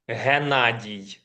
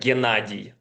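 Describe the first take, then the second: First: The name begins with a soft H sound. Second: The name begins with a hard G sound. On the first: This is the Ukrainian form of the name. "it's more like h" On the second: This is the Russian form of the name. "the Russian variant of it is uh, Gennady, like G"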